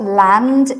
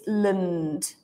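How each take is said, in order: First: The vowel is a full open 'a' sound. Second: The vowel is a weak 'uh' sound. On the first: The speaker calls it wrong. "It's not land" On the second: The speaker calls it right. "it's lund"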